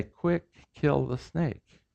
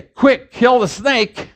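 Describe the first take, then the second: First: Said in the usual way. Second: "Quick, kill the snake" with heavy puffs of air on the K sounds; aspirated demo. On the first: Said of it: "than I say". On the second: Shown as a demonstration. Teacher showing English aspiration, heavy puffs of air. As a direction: spit the air out on "Quick" and "kill", slower and higher. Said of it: "I'm aspirating all over the place".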